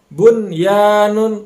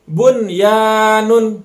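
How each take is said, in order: Both takes have the same delivery.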